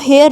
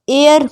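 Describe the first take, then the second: First: The word begins with an h sound. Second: The word begins with a vowel sound. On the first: The speaker calls it wrong. "इसको हेयर नहीं पढ़ेंगे" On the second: The speaker calls it right. "एयर पढ़ते हैं हम"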